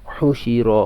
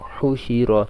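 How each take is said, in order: The two takes are said the same way.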